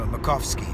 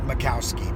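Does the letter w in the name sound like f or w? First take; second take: f; w. First: The w in the name sounds like f. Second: The w in the name sounds like w. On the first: The speaker calls it right. "the W turns into an F" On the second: The speaker calls it wrong.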